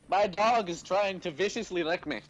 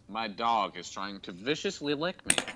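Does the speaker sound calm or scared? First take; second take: scared; calm. First: The voice sounds frightened and alarmed. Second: The voice sounds quiet and composed. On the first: "You're like actually scared about that" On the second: "In your museum voice"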